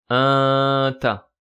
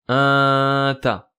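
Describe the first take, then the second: No difference in how they are said.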